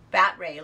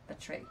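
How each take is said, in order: First: "Bat ray" said as two words, like the sea creature, bat then ray, loud; mispronounced word. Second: Said in the usual way. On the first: Real, not acted. Reading a viewer comment aloud, misreading "Bat ray" as the sea creature. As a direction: read "Betray" wrongly as "Bat ray". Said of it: "I said it like I was French". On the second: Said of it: "I'm so dumb".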